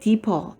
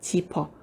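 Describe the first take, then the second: First: The word starts with a plain 'd' sound. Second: The word starts with a palatalized 'j' sound.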